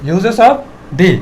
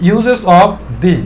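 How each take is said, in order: No difference in how they are said.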